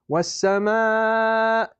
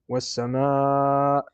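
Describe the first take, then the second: First: The pitch rises upward on sama. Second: The pitch stays low on sama. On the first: The speaker calls it right. "You should go up" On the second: The speaker calls it wrong. "if you read sama like this"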